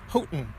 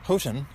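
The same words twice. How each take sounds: First: The T is replaced by a brief stop. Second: The T in the middle is fully pronounced. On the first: "drop the T ... there's a stop there, but not much of a T. It's kind of a lazy T" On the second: "is the proper way to say it"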